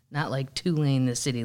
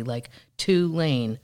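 First: Tulane as the city name; "Tulane" said like the university; contrasting pronunciation. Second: "Tulane" slowly, syllable by syllable; drawn-out pronunciation. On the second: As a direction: stretch out "Tulane" deliberately. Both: Shown as a demonstration.

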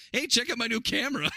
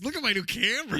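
First: High, loud show-off brag; hammed-up eager show-off; mock show-off voice. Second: High, loud camera brag; eager show-off, hammed up; mock show-off voice. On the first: Mocking Horse Girl's camera line. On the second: Quoting the favourite line.

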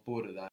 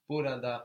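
First: "burada" shortened to two syllables, bur-da; contracted form. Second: "Burada" with all three syllables; full form. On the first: Teacher giving students both forms, "burada" contracted to bur-da. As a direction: drop the middle a in "burada". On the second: Teacher giving students both forms, "Burada" in full. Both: Shown as a demonstration. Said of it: "the same contraction".

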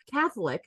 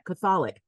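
First: Said in the usual way. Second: Catholic stressed on the second syllable, kuh-THOL-ic; wrong syllable stressed. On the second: Real, not acted. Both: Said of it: "put the emphasis on the wrong syllable".

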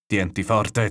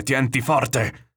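First: Mildly raised warning call; a restrained storyteller's shout to hold on. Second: Higher, drawn-out warning shout; escalated cry to hold on, stretched slow. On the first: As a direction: call out firmly, holding some back. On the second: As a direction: call it out long over crashing waves. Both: A narrator's reading. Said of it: "gli gridava il nonno".

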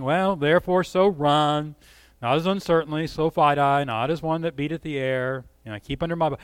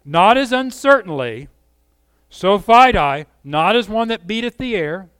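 First: Listless, indifferent reading; flat and bored. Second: Ringing and louder; passionate. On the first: Pretend. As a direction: mumble it like you don't care. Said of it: "I don't hear that kind of tone". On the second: Shown as a demonstration. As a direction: deliver it with conviction. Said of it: "the passion in Paul's voice".

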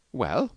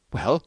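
First: Said in the usual way. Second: Mildly anxious, higher question. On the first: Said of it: "said the little doctor". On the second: A narrator's reading. Husband waiting on the doctor's word, mildly anxious. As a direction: ask with a touch of worry. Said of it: "he said anxiously".

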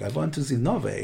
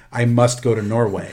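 First: Said in the usual way. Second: A hint of a bad Norwegian accent, hammed-up; terrible Norwegian accent. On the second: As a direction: lightly fake Norwegian accent, like a kid. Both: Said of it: "That was a terrible Norwegian accent".

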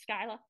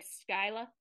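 First: Skyla with a Boston accent. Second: Said in the usual way. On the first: Shown as a demonstration. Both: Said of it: "in the Boston accent".

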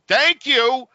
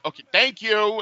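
First: High, loud, sing-song "Thank you"; exaggerated thank you. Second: Said in the usual way. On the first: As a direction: chirp it with fake cheer before hanging up.

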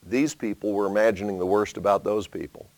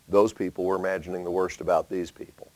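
First: "These" leaned on at the start, "those" at the end left light; "These" carries the weight, the line drops away after it; stress on these. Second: "Those" leaned on at the start, and the line runs a bit quicker; "Those" carries the weight, mirrored from the line before; stress on those. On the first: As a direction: open on a firm "These" to point at one group. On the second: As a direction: open on a firm "Those" to turn it round on the other group. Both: Shown as a demonstration.

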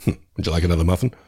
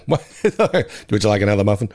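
First: Bad Ned voice. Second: Lightly voiced gravelly-free Ned, half-laughing; a quick, half-hearted Ned impression; bad Ned voice. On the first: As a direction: lightly do Ned's polite offer. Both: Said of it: "I did his bad Ned voice".

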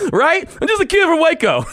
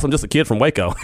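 First: Much higher, words riding on real laughter; laughing through it. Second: Said in the usual way. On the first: Real, not acted. Host repeating his boss's jab at himself, laughing. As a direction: say it while cracking up.

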